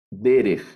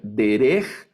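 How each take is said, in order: First: Derech as DE-rej, falling; stress on the first syllable. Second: Derech stressed on the end, de-REJ, rising; wrong stress. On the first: (Derech acentuado al principio) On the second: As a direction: push the stress onto -rech in Derech. (Derech mal acentuado, en la última sílaba) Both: Shown as a demonstration. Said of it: "no voy a leer".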